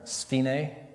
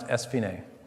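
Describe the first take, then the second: First: The word starts directly with the sf sound. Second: The word starts with an extra vowel before sf. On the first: The speaker calls it wrong. "a lot of people pronounce this term sphene" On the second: The speaker calls it right. "It's pronounced esphene"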